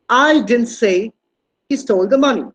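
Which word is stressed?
I. The stress falls on the word "I". Someone other than the speaker said it. "It means I, I'm not the person who told that"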